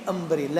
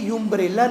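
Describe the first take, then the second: First: The word begins with an 'uh' sound. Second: The word begins with a 'yoo' sound. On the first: The speaker calls it right. "ये अम्ब्रेला है" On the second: The speaker calls it wrong. "ये यूम्ब्रेला नहीं है"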